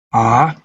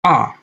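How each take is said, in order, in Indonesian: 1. Nadanya turun dulu lalu naik lagi. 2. Nadanya jatuh tajam dari tinggi ke rendah. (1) "Nada melengkung seperti mobil turun lembah lalu naik lagi" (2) "nada jatuh, nada yang menurun"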